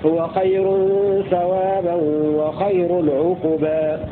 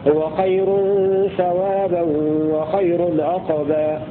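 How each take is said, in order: First: The q in the last word is followed by u. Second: The q in the last word has no vowel. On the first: "وقرأ الباقون بضمها" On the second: "بسكون القاف"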